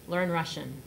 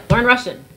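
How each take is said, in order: First: Said in the usual way. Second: Loud, curt order; mock brusque command. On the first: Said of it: "he looked at me and he said". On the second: Correspondent brushing her off, loud and curt. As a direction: bark it like a busy bigshot. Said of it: "this man was like".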